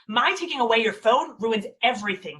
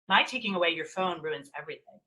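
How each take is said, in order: First: It is said with strong, heightened emotional intensity. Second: It is said in a calm, even voice. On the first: "Matched intensity is" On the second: "Calmly would be saying"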